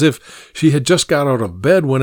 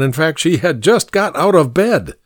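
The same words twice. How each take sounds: First: Said in the usual way. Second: "just" lifted and pushed, then falling; stress on just. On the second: A narrator's reading. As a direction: hit the word "just".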